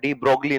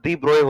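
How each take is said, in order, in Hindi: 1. नाम 'brogli' पर खत्म होता है, इसमें g की ध्वनि है। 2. नाम 'broy' पर खत्म होता है, इसमें g की ध्वनि नहीं है। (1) "डी ब्रोगली नहीं होता है" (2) "डी ब्रोय होता है"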